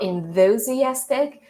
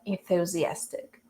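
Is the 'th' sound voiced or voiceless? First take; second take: voiced; voiceless. First: The 'th' is said with a voiced sound. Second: The 'th' is said with a voiceless sound. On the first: The speaker calls it wrong. "It's not enthusiastic" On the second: The speaker calls it right. "it has the voiceless sound"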